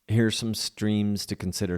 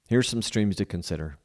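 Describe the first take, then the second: First: It is said in a Southern American accent. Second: It is said in the speaker's usual accent.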